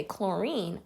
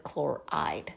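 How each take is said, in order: First: Put-on "chlorine" with the old -ine ending, said as a plain example; "chlorine", the word to avoid; wrong ending chlorine. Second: "chloride" with the -ide ending, quietly settled; right ending chloride. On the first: Teacher showing students the wrong name, plainly. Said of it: "we don't say chlorine". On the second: Teacher giving students the correct name, softly. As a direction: end it "chloride", landing on -ide. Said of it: "we end with chloride". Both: Shown as a demonstration.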